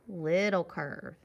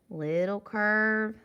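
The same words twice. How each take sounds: First: Slow "little curve" dropping low on "curve"; falling tune. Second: Slow "little curve", "curve" sustained loud and level; held tune. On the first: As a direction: finish "little curve" downward. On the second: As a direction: hold "curve" up, unfinished. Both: Shown as a demonstration. Chanting along with drawn letter strokes.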